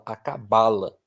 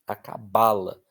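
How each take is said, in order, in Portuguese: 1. A sílaba tônica cai na penúltima sílaba. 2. A sílaba tônica cai na penúltima sílaba.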